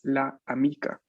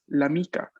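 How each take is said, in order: First: The article's vowel is said separately before the noun. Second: The article's vowel drops and joins the noun. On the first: The speaker calls it wrong. "no es la amica, es incorrecta" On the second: The speaker calls it right. "la forma correcta de pronunciar"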